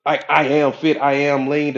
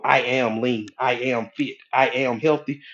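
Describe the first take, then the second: First: Louder affirmation. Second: Said in the usual way. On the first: Shown as a demonstration. Preacher sounding out the affirmation louder for the crowd. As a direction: proclaim it louder, fully committed. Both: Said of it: "I can sit here and go".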